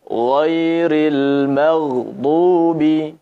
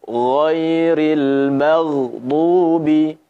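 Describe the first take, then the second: No difference in how they are said.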